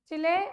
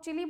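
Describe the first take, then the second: First: The word ends with an 'ay' sound. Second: The word ends with an 'ee' sound. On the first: The speaker calls it right. "चिले बोलना चाहिए" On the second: The speaker calls it wrong. "बहुत लोग चिली बोलते हैं"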